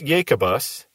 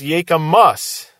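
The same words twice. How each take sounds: First: The middle consonant is a B sound. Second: The middle consonant is an M sound. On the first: The speaker calls it right. "mispronounce Jacobus" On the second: The speaker calls it wrong. "as if it had an M rather than a B"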